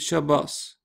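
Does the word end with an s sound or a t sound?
s sound. The word ends with an s sound.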